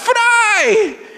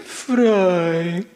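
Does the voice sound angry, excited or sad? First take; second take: excited; sad. First: It is said in an excited tone. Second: It is said in a sad tone.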